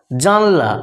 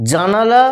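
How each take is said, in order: First: জানলা with the middle vowel dropped; colloquial altered pronunciation. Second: Said in the usual way. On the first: Shown as a demonstration. Teacher showing students the altered form, জানলা shortened. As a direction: squeeze it to two syllables, "jan-la". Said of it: "একটু বিকৃত উচ্চারণ". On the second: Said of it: "বাঁ দিকের উচ্চারণগুলো হচ্ছে শুদ্ধ উচ্চারণ".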